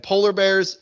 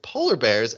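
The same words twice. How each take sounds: First: Said in the usual way. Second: Lightly scoffing question, lower; Michael. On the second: Retold or imitated. Podcaster imitating Michael hearing of the bears, scoffing. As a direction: scoff it in mild disbelief. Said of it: "Michael scoffs and he's like".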